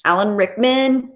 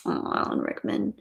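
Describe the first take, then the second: First: Said in the usual way. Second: Breathy hush on the name; admiring whisper. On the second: Pretend. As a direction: sigh the name like a fan.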